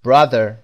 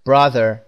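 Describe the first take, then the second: The two takes are said the same way.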